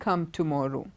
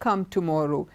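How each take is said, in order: No difference in how they are said.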